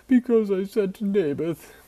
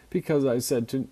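First: High, loud whining king; whiny Ahab voice. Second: Said in the usual way. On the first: Acted. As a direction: whine it like a spoiled king. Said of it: "the whiny Ahab voice". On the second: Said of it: "gotta get the, the whiny Ahab voice in here".

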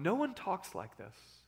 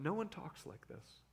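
First: Slow, weighty, each word leaned on; slow emphasis. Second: Much softer, almost under the breath; hushed echo. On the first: Preacher echoing the crowd, slow and marveling. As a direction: savor the line slowly, marveling. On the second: Preacher repeating the crowd's words in a hush. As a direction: repeat it quietly, letting it sink in. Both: Shown as a demonstration.

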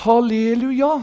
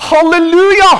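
First: Said in the usual way. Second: High, loud jubilant shout; ringing praise cry; full-voice hallelujah. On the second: Shown as a demonstration. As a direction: shout hallelujah as heaven's crowd would.

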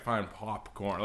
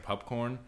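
First: Slow "popcorn" with an open ah in "pop"; forced standard vowel. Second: "popcorn" with the first vowel like "pup"; accented vowel. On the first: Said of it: "I couldn't do that". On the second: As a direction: say "popcorn" as "pupcorn". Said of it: "You're saying pup, like P U P". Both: Shown as a demonstration.

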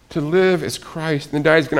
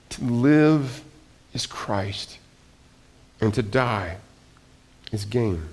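First: Said in the usual way. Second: Softer, falling to a whisper on "is Christ"; slow and softer, almost breathed; hushed reading. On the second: Shown as a demonstration. Preacher reads Paul's verse to the congregation in a hush.

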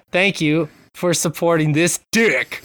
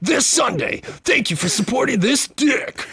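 First: Slow, pitched-up build to the last word; mock announcer. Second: Very high, strained event-ad voice; mock hype announcer. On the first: Host reading co-host's typed joke, mock announcer. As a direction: draw it out into a big drop on DICK. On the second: Host joining co-host's riff, high mock hype announcer.

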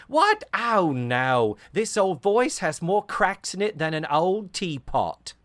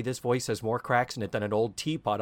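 First: High, loud Cockney dame; indignant Cockney protest, pitched up; old Cockney. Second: Said in the usual way. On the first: Retold or imitated. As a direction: squawk it in hammed-up Cockney. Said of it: "she's doing the old talking Cockney". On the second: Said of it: "but for her to say".

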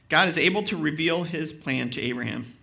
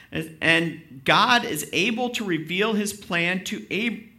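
First: Said in the usual way. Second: Slow, rhythmic, leaning on "God"; rhythmic delivery. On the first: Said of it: "Yeah, I said it right". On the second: Shown as a demonstration. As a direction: stretch it out and give it rhythm. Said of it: "got some rhythm there".

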